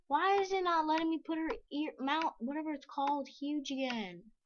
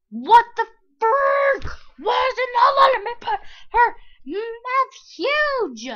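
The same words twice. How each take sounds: First: Said in the usual way. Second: Much higher, loud exasperated yelling; frustrated shout. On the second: Real, not acted. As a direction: blow up at the game, yelling, slowly. Game won't make mouth huge.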